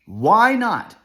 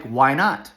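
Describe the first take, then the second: First: "Why not?" much higher and louder; insistent demand. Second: Said in the usual way. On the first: Retold or imitated. Father pressing the school staff, loud high "Why not?". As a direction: push the second "Why not?" up hard. Repeated, pushed harder.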